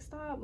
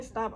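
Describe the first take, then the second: First: Quietly saying stop. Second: Said in the usual way. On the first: Retold or imitated. Telling the man on the couch to stop, softly. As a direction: barely say it, don't raise your voice. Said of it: "I'm, like, just saying". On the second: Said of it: "But I'm not screaming".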